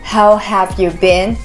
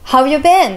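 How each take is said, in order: First: Each word is said separately and fully. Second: The words run together into one linked chunk. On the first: The speaker calls it wrong. "Au lieu de dire how have you been, qui est assez long et chiant" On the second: The speaker calls it right. "on va dire how have you been?"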